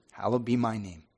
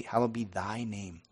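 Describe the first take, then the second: First: "my" said in place of "thy"; child's slip, "my" replacing "thy". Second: "thy" drawn out slowly for a learner; stress on THY. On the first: Little daughter repeating the prayer, "my" where "thy" belongs. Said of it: "that's the worst word to get wrong". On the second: Father teaching his daughter the prayer, slow stress on "thy". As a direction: slowly spell out the word "thy". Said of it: "Can't you say". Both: Retold or imitated.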